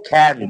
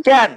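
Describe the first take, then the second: First: খ্যান opening on a breath-puffed kh; new aspirated K. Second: ক্যান with a plain, unaspirated k; old unaspirated K. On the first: Teacher showing learners the new way, aspirated kh in খ্যান. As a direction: say খ্যান with a puff of air after the k. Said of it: "এখন করব". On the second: Teacher showing learners the old way, plain k in ক্যান. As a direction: say ক্যান with no puff of air. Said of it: "আগে আমরা উচ্চারণ করেছি". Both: Shown as a demonstration.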